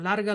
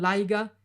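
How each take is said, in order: First: The middle sound is an r. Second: The middle sound is an i vowel.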